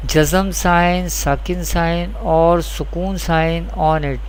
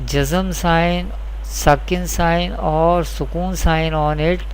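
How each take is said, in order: Both takes have the same delivery.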